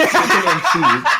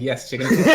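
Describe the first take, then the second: First: Repeating it through a high laugh; breaking into laughter on the words. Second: Said in the usual way. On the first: Real, not acted. Friend laughing as he retells the order. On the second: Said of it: "I'm like".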